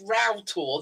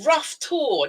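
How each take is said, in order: First: The first word sounds like "row". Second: The first word sounds like "rough". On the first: The speaker calls it right. "it's Row Tor, though it's spelled R O U G H" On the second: The speaker calls it wrong.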